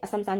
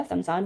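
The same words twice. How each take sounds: First: असमसान with an extra "a" at the front; mispronounced with extra vowel. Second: समसान starting straight on the s; समसान in two beats, sam-saan; corrected form. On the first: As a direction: start असमसान on a short "a": a-sam-saan. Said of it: "जैसा कोई शब्द नहीं होता". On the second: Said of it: "समसान होता है". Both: Shown as a demonstration.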